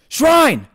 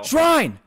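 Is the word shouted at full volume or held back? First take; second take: full volume; held back. First: The word is shouted loudly at full volume. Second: The word is said with restrained, quieter force. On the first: "I know I sound loud" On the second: "I'm trying to not yell"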